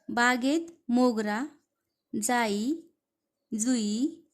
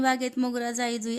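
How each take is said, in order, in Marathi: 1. प्रत्येक फुलाच्या नावानंतर थोडा विराम असतो. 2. फुलांची नावे विराम न घेता एकमेकांना जोडून म्हटली जातात. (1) "थोडासा विराम घेतला पाहिजे ते शब्द वाचताना" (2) "असं जर वाचलं तर ते अपेक्षित नाही"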